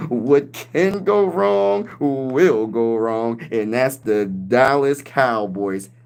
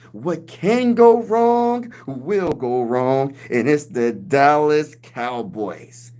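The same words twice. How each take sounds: First: Very slow, drawn-out pundit verdict; Stephen A. Smith impression. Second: Stephen A. Smith impression. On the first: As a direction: drag it out like a TV pundit. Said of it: "Stephen A. Smith will probably make up and say". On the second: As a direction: stretch every word like a TV pundit. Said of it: "he's gonna talk about the Cowboys like this". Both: Streamer imitating a pundit mocking the Cowboys, very slow.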